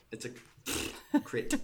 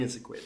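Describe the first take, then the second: First: "crit" spelled out slowly; slow correction. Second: Said in the usual way. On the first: Shown as a demonstration.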